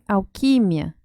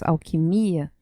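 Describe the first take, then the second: First: The stress is on the syllable qui. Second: The stress is on the syllable mi. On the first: This is the Spanish pronunciation. "E ustedes dicen alquimia" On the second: This is the Portuguese pronunciation. "Nosotros decimos alquimia"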